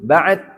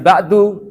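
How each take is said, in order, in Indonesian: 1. Kata itu diakhiri konsonan hambat. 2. Kata itu diakhiri vokal pendek. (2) "Bukan ba'du"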